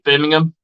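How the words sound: It is said the British way.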